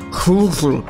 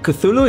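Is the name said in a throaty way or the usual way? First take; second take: throaty; usual. First: The name is said with harsh, spitty throat sounds. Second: The name is said in the familiar English way. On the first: This is the supposedly authentic pronunciation. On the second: This is how people commonly say it.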